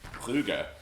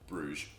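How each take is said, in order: First: The name is pronounced the Flemish way. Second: The name is pronounced the English way. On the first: "which is how you say it in uh, Flemish" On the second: "to the rest of the world, Bruges"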